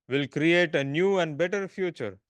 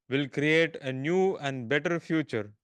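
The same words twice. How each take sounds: No difference in how they are said.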